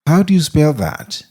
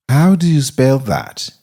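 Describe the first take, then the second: No difference in how they are said.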